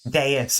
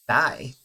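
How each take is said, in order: First: The word is said as two syllables. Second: The word is said as one syllable. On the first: The speaker calls it right. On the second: The speaker calls it wrong.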